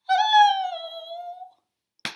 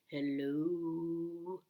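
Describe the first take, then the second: First: It is said in a high, squeaky voice. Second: It is said in a very low voice.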